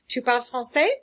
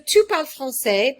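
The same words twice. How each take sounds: First: The voice rises at the end like a question. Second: The voice falls at the end like a statement. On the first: It asks whether the listener speaks French. "change my voice into a question mark" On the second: It states that the listener speaks French. "by itself, the statement"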